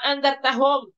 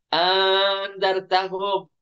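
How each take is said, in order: First: Two glottal stops are pronounced at the start. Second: The second stop becomes a long vowel. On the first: "andartahum itu dua hamzah dibaca" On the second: "hamzah yang kedua itu diganti dengan alif. Lalu bacanya menjadi panjang"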